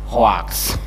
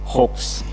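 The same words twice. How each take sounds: First: It is pronounced with an Indonesian accent. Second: It is pronounced in the standard way. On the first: "karena lidah kita lidah Indonesia jadinya hoax" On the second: "yang benar adalah hoax"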